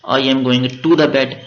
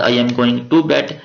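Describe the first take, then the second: First: "the" spoken slowly and clearly in "I am going to the bed"; very slow teacher example with "the"; slow contrast take. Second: Said in the usual way. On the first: Shown as a demonstration. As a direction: linger on "the" before "bed". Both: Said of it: "ये खुद आपने बताना है कि इनमें से कौन से ठीक है".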